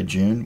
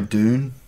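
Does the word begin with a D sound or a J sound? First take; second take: J sound; D sound. First: The word begins with a j-like sound. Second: The word begins with a plain d sound. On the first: This is how Australians say it. "we just say June" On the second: This is how Americans say it. "They say Dune"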